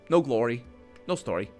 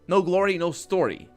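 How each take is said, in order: First: It is said in a plain, ordinary voice. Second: It is said in a put-on character voice. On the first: The speaker calls it wrong. "that's not how she would... I didn't say it properly" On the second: The speaker calls it right. "she says"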